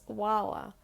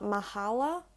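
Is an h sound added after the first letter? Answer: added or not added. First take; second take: not added; added. First: No h sound is inserted after the first sound. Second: An h sound is inserted after the first sound. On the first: The speaker calls it right. "it's wala" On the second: The speaker calls it wrong. "you don't pronounce it like just adding in the sound of a H"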